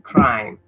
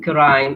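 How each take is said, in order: First: The k and r are joined without a vowel. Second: A vowel is inserted between k and r. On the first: The speaker calls it right. "it's crime" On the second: The speaker calls it wrong. "don't read crime"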